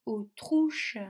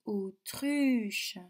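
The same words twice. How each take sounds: First: "autruche" mispronounced with OU as in "trouche"; the wrong "autruche", OU in place of the French U; wrong vowel demo. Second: "autruche" drawn out with a clear French U, "o-truuche"; careful model "autruche", tight U rather than OU; correct vowel demo. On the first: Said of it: "je ne dis pas". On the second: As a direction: say "autruche" slowly with U as in "tu". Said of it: "je dis autruche". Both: Shown as a demonstration.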